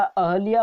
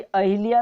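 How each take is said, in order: First: अहल्या slowly, as a-HA-lyaa; ha without i. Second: अहिल्या with "hi" in the middle; i after h. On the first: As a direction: draw out अहल्या with "ha", not "hi". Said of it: "अहल्या होता है". (अहल्या धीरे, "ह" बिना इ के) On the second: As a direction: say अहिल्या as a-HI-lyaa. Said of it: "अहिल्या नहीं होता". (अहिल्या में "हि" बोलें) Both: Shown as a demonstration.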